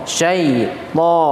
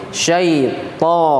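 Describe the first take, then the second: The two takes are said the same way.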